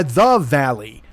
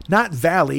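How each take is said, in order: First: "the" stretched out before Valley; stress on THE. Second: Said in the usual way. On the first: Shown as a demonstration. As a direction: draw out THE in "the Valley", falling. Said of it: "not the, not, uh, the Valley". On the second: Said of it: "it was called Valley, but not the Valley".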